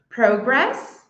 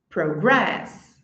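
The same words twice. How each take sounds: First: The stress is on the first syllable. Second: The stress is on the second syllable. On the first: It is used as a noun. "a primeira coluna ali é o substantivo" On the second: It is used as a verb. "a segunda é o verbo"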